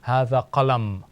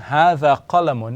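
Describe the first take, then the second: First: The last word ends on a bare m sound. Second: The last word ends with a final vowel sound. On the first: "as if to indicate that there is a sukoon on the meme" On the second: "instead of saying"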